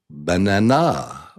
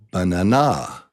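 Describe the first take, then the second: No difference in how they are said.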